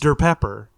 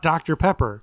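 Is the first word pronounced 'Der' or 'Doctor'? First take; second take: Der; Doctor. First: The first word is said as one-syllable 'Der'. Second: The first word is said as two-syllable 'Doctor'. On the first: The speaker calls it right. "It's Der Pepper" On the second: The speaker calls it wrong. "it's not Doctor Pepper"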